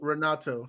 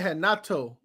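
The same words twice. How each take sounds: First: The name begins with an English R sound. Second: The name begins with an H-like sound. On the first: This is not how Brazilians say the name. The speaker calls it wrong. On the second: This is how Brazilians say the name. The speaker calls it right. "We say we say Renato"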